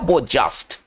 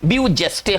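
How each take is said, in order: First: It is said the French way: 'bo zhest'. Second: It is read as spelled: 'byoo jestay'. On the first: The speaker calls it right. "सही उच्चारण दिया जाए तो इसका उच्चारण निकल कर आएगा वो जस्ट" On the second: The speaker calls it wrong. "आप पढ़ रहे हैं ब्यू जेस्टे, हम लोग ऐसे पढ़ेंगे"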